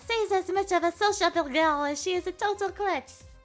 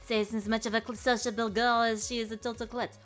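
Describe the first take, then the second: First: The voice is in a higher register. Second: The voice is in a lower register. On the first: "the higher pitched" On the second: "lower sort of register voice"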